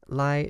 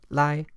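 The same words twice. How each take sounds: First: Lai is said without a tone. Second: Lai is said with its full tone. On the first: "In this phrase, lai is reduced to a toneless form" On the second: "By itself, these words are zip and lai"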